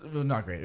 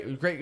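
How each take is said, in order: First: Not leaned on and falling, lower and flat; stress on not. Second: Deadpan it, as if it was anything but; sarcastic. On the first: Host admits the show went badly, stressing not. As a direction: land hard on not to drop the joke. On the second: Podcast host joking about his band's worst show, deadpan irony. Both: Shown as a demonstration.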